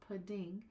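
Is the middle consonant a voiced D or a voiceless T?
voiced D. It has a voiced D-like middle sound, American style.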